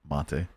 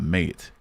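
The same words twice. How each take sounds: First: It is said like a foreign, non-English word. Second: It is said like the English word mate. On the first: The speaker calls it right. "What makes most sense after that?" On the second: The speaker calls it wrong. "so I'm gonna think not mate"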